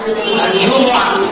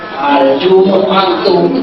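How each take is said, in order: First: The word ends without a -tu ending. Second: The word ends with a -tu ending. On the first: "Itu lebih bergaya Arabik"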